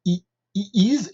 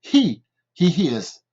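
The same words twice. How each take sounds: First: "he is" with silent H, like "ee iz"; dropped H. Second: "he is" with a strong puff of H on "he"; aspirated H. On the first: Teacher showing the French learners' mistake, H dropped from "he is". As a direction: say "he is" French-style, no breath before the vowel. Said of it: "on ne peut pas dire". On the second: Teacher giving learners the correct form, aspirated H in "he is". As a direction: breathe out the H in "he is", slow and loud. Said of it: "il faut dire". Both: Shown as a demonstration.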